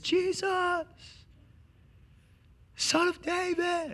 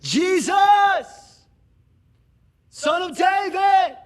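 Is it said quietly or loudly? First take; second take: quietly; loudly. First: It is said quietly, barely audible. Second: It is shouted very loudly.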